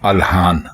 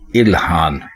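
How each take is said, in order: First: The first vowel is 'a'. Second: The first vowel is 'i'. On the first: The speaker calls it wrong. "अलिफ के ऊपर जबर लगाकर नहीं बोलना चाहिए" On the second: The speaker calls it right. "दुरुस्त लफ्ज है इल्हान"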